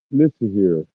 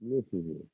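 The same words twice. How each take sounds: First: Loud, firm call for attention; stern command. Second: Quiet warning. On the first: Streamer telling off a poster, loud and firm. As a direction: demand they listen up. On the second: Streamer repeating the warning to a poster, much softer. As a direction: drop it down, menacing and quiet. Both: Real, not acted. Scolding chat, repeated command.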